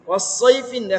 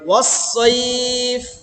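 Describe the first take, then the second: First: The word ends with the full '-in' sound. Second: The ending is dropped and the vowel is lengthened. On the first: The reading continues without stopping. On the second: The reader stops on this word.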